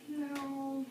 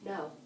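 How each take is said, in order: First: It is said hesitantly and weakly. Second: It is said firmly and calmly.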